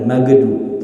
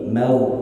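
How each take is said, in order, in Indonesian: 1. Bunyi gh memantul dengan lepasan yang terdengar. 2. Bunyi gh ditahan tanpa lepasan. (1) "jangan ada qalqalah pada huruf go, jangan magdu" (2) "mau ditahan, tenggorokan bagian atas ditahan"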